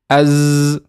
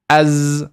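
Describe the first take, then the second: The two takes are said the same way.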